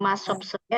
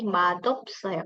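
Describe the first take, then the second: First: The first syllable ends with an s sound. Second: The first syllable ends with a d sound. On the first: The speaker calls it wrong. "S-nya tidak dibaca masopsoyo ya" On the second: The speaker calls it right. "tapi madopsoyo"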